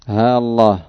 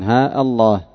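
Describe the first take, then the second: First: One long a joins the words without a glottal stop. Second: A long a, then a glottal stop before Allah. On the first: "بإظهار ألف واحدة بغير همز" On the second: "ثبوت الألفين، قطع الهمزة"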